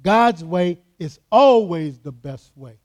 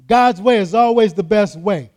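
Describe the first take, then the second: First: "always" stretched and leaned on, slow and loud; "God's way is ALWAYS the best way", always held long; stress on always. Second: Slow, loud and stressed; every word weighed; emphatic reading. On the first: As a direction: hammer the word "always" slowly. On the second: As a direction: read it out as a firm declaration. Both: Shown as a demonstration. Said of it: "I'll read it again".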